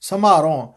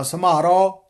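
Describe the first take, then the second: First: ਸਮਾਰੋ as "samhaaron", breathy m and nasal end; half h, nasal. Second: ਸਮਾਰੋ as bare "samaro"; plain m and oral final o in ਸਮਾਰੋ; no h, no nasal. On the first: Teacher modelling ਸਮਾਰੋ with half h and nasal ending. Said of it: "ਅੱਧਾ ਹਾਹਾ ਵੀ ਉਚਾਰਨ ਕਰਨਾ". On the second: Teacher showing the mistake, ਸਮਾਰੋ without h or nasal. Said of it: "ਇਸ ਤਰ੍ਹਾਂ ਉਚਾਰਨ ਨਹੀਂ ਕਰਨਾ". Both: Shown as a demonstration.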